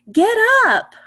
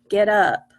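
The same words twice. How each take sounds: First: Much higher and louder, with excitement; excited exclamation. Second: Said in the usual way. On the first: Shown as a demonstration. Teacher demoing an exclamation to young readers, excited. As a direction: read it like an exclamation point. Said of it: "that was with an exclamation point". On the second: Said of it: "That was with just the period".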